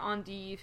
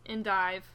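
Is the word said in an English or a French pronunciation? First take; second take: French; English. First: It is said with a French pronunciation. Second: It is said with an English pronunciation.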